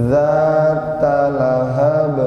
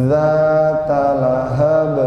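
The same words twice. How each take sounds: Both takes have the same delivery.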